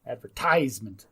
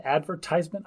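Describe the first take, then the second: First: "advertisement" leaning on the third syllable, TIES; stress on TIES. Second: "advertisement" with the first syllable AD stressed. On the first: Co-host feels we're stressing the ties, "advertisement" leaning on TIES. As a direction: test "advertisement" as ad-ver-TIES-ment. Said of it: "we're stressing the ties". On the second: Co-host checks the American way, "advertisement" stressed on AD. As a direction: test "advertisement" as AD-ver-tise-ment. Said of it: "we're stressing the ad". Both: Shown as a demonstration.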